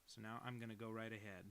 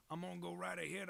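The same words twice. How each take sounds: First: Said in the usual way. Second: A lightly voiced bouncy announcer, higher and louder; hammed-up cheerful declaration; playful put-on voice. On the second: Streamer hyping up chat about the drawing, mock announcer.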